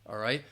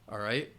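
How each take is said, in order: The two takes are said the same way.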